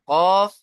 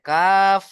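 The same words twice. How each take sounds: First: Loud, held কফ from the tongue root; back-of-tongue qaf. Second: Long কাফ, just forward of the tongue root; more forward kaf. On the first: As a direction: press the back of the tongue to the palate for কফ. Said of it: "জিভের গোড়া থেকে তার বরাবর". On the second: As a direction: draw out কাফ a little forward on the palate. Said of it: "জিভের গোড়া হতে একটু আগে". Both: Shown as a demonstration.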